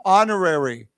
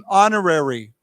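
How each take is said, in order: No difference in how they are said.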